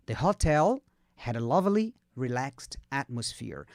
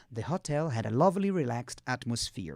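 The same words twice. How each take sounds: First: Slow model reading. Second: Whole sentence linked, slowing low and soft at the end; joined-up model reading. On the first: Teacher modelling the hotel sentence for repetition, slowly with pauses. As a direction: break it up slowly for learners. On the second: Teacher giving the whole sentence before students repeat, joined-up and measured. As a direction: run the chunks together, still careful. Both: Shown as a demonstration. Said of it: "Pega devagarzinho".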